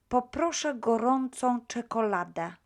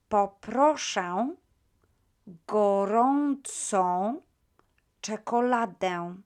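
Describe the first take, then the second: First: It is said quickly. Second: It is said at a normal pace.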